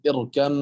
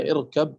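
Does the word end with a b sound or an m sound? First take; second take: m sound; b sound. First: The word ends with an m sound. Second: The word ends with a b sound. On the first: "هنا قرأت اركم معنا" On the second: "هي اركب"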